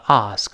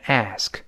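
First: It is said with a British accent. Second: It is said with an American accent. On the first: "这个英式发音读成ask" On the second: "美音呢由r 变成a，读成ask"

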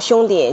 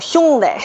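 First: It is said in a general Beijing accent. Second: It is said in a southern Beijing dialect. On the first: "不叫兄弟" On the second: "南城哈，他管兄弟……叫兄弟"

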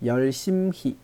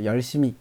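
First: The word is said slowly and carefully. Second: The word is said quickly and smoothly.

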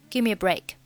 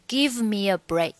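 First: The v at the end of give is dropped. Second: The v at the end of give is pronounced. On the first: The speaker calls it right. "当中give 末尾的v 的音呢，我们就不要发了" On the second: The speaker calls it wrong. "你不需要读成give me a break"

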